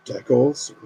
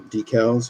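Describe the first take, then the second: First: "decals" as DECK-uls, rising at the end; "decals" said DECK-uls, offered as one option; alternate pronunciation. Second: "decals" as DEE-cals, with a long ee; "decals" said DEE-cals, the other option; alternate pronunciation. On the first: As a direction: say "decals" with a short first vowel, like deck. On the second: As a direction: say "decals" with the first syllable like dee. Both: Shown as a demonstration. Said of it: "however you want to say it".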